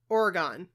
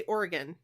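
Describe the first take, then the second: First: Oregon said OR-uh-GONE; Oregon with an open, unreduced last syllable; own pronunciation. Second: Oregon said OR-uh-gun; Oregon with a weak last syllable; others' pronunciation. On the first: Shown as a demonstration. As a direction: give Oregon a full "gone" ending. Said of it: "I say". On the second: Retold or imitated. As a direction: reduce the end of Oregon to "gun". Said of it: "I hear people say".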